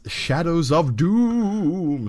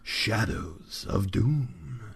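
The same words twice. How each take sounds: First: It is said in an ordinary speaking voice. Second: It is said in a dramatic movie-trailer voice.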